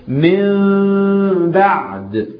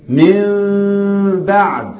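No difference in how they are said.

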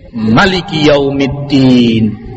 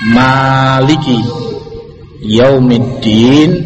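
First: The first vowel of maliki is kept short. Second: The first vowel of maliki is drawn out long. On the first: God is the ruler of the Day of Judgement. "Boleh pula dibaca qasr pendek" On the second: God is the owner of the Day of Judgement. "Boleh dengan mat dibaca panjang"

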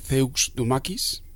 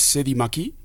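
First: The title is read out letter by letter. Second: The title is pronounced the usual French way.

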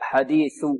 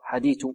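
First: The final sound is a clear dental 'th'. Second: The final sound lacks a clear dental 'th'. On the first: The speaker calls it right. "لابد من إبراز طرف اللسان" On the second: The speaker calls it wrong. "لا"

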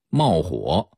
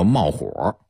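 First: The word ends without an r-colored sound. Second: The word ends with an r-colored sound. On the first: Something catches fire. "原意是着火起火" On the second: Someone gets anxious and angry. "加了儿化韵就成啊这人着急生气"

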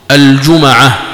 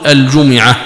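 First: The m is followed by an a vowel. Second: The m is followed by an i vowel. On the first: "بفتح الميم" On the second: "بكسر الميم"

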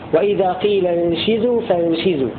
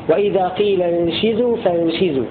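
First: The vowel after 'sh' is 'i'. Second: The vowel after 'sh' is 'i'.

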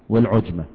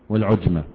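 The two takes are said the same way.

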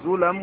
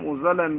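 First: The first vowel is a rounded 'u'. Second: The first vowel is an open 'a'. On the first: "وضمها" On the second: "بفتح الزاي"

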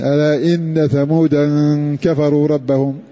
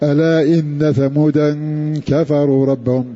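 The two takes are said the same way.

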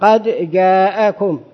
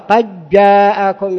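First: The d is pronounced clearly before the j. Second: The d is merged into the following j. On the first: "لكن القراءة المشهورة قد جاءكم" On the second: "وفيها قراءة قد جاءكم، يعني الداء يضيعها"

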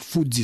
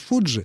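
First: The middle consonant is a hissing 'dz' sound. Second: The middle consonant is a hushing 'j' sound. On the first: This form is closer to the original Japanese. The speaker calls it right. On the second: This form came in through English. The speaker calls it wrong.

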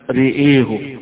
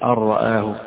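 First: Both vowels lean fully toward e. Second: Both vowels are fully open a sounds. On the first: "بإمالتين، إمالة الراء وإمالة الياء أيضا" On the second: "بالفتح"

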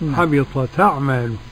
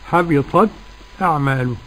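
First: The hamza drops and the words run together. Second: A brief breathless stop comes before the hamza. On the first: "ده النقل" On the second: "السكت"

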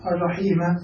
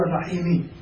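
First: The word ends with an a vowel. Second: The word ends with an i vowel. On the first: The word is cut off into the accusative case. The speaker calls it right. "أو الرحيم للقطع إلى النصب" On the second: The word follows the noun before it in the genitive case. The speaker calls it wrong. "ولا يجوز أن تقول الرحيم للخفض"

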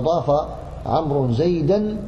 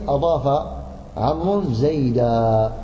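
First: The last word ends with an -an sound. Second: The last word ends with a long a vowel. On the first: The speaker carries on without stopping. "فزيدا تنونه" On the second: The speaker stops at this word. "وإذا وقفت عليه"

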